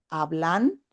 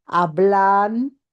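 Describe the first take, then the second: First: Said in the usual way. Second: Hablan said louder with a rising end; emphasized example word. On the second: Shown as a demonstration. Teacher showing students a verb form, hablan said louder with a rising end. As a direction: stress hablan as the main example. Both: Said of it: "si yo digo".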